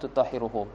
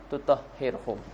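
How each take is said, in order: First: The verb has a 'u' vowel before the ending. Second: The verb has no vowel before the ending. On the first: It describes the charity. "Kalau kita kata bukan makna jaza" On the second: It is the result of the taking. "kita nak masukkan jaza, boleh kita baca"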